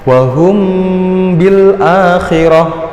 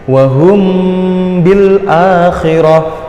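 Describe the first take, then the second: No difference in how they are said.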